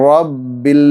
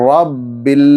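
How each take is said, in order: No difference in how they are said.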